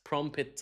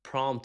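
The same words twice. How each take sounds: First: The p before the final t is pronounced. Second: The p before the final t is silent. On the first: The speaker calls it wrong. "بيقولوا prompt prompt حاجات غريبه" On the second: The speaker calls it right. "ال p silent"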